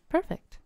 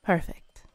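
First: Bright, much higher delighted perfect; gleeful, pitched-up approval. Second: Hushed approval; whisper. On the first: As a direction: chirp it with delight. Delighted the deal is struck. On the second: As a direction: whisper it, satisfied. Pleased as client agrees. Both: Acted.

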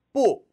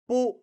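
First: High, loud 뿌 falling sharply; corrected 뿌. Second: Weaker falling 뿌, less high; wrong 뿌. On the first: Teacher correcting learners, forceful high falling 뿌. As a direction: hit 뿌 high and drop it fast. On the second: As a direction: say 뿌 without the high forceful start. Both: Shown as a demonstration. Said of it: "뿌 아니에요".

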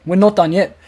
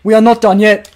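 First: Said in the usual way. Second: "We are not done yet" at full voice, "not" stressed; firm insistence. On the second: Real, not acted. Rallying his viewers that they are not done, firmly.

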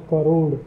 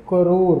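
First: करोड़ ending in a Hindi retroflex ड़, a bit louder; Hindi crore. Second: करोड़ ending in an r sound, as in English; English crore. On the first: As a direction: end करोड़ with ड़. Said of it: "Hindi में जब हम करोड़ बोलते हैं तो ड़ लगता है". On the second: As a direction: end करोड़ with र, not ड़. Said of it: "र आता है". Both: Shown as a demonstration.

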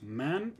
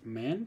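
First: Man with an open a and rising tune; singular demonstrated. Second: Men with a short e; men as the contrasting plural, short e; plural demonstrated. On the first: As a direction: say man with the a of cat. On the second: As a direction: say men with the e of ten. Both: Shown as a demonstration. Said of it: "la pronunciación va a ser".

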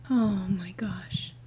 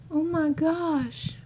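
First: Breathless frightened whisper; scared whisper. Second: High, slow, shaken voice. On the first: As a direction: whisper it in shock. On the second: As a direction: drag it out in disbelief. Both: Real, not acted.

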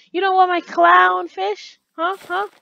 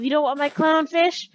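First: High, very loud incredulous question; outraged, raised-pitch challenge; escalated mock indignation. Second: Loud incredulous question; mock indignation. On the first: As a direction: demand it at a near shout. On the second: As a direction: ask it loudly, as if affronted. Mock indignant question, first take.

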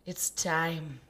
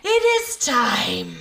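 First: Hushed, whispered announcement; soft breath of a whisper. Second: Loud, slow proclamation; raised, ceremonial film-character voice; Rafiki. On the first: Pretend. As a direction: whisper it like a solemn cue. Hushed quoting of a film line. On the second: Retold or imitated. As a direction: proclaim it grandly, drawn out. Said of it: "Like Rafiki says".

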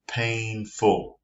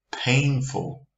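First: "painful" split into two separate beats; syllable by syllable. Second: Said in the usual way. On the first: Shown as a demonstration. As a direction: break "painful" into pain, ful. Teacher counts out two syllables.

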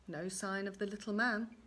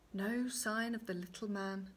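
No difference in how they are said.

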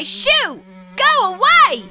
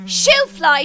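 First: Shooing yell. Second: Said in the usual way. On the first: Acted. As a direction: drive the fly off. Chasing fly away.

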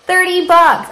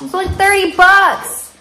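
First: High, loud delighted echo of the price; excited high echo; amazed repeat. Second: High, loud delighted squeal at the price; excited high-pitched disbelief; amazed. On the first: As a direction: say it again, still thrilled. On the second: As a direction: squeal it out, can't believe the bargain. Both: Real, not acted.

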